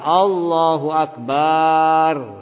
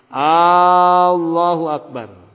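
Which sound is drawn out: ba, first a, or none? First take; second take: ba; first a. First: The ba syllable is drawn out long. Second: The first a sound is drawn out long. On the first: The meaning changes. "Atau memanjangkan ba-nya, bar" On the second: It asks whether God is greater. "jangan sampai memanjangkan lafaz A-nya"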